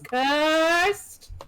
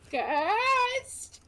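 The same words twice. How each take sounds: First: It is said in a deep, spooky voice. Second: It is said in a high, squeaky voice. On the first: "do a real spooky voice" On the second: "Your voice squeaks as you"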